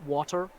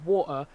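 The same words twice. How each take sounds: First: The middle T is clearly pronounced. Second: The middle T is cut with a glottal stop. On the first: "not water" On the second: "That's a glottal stop"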